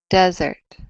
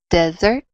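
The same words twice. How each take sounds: First: The stress is on the first syllable. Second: The stress is on the last syllable. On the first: "That's on the first syllable" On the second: "That's on the last syllable"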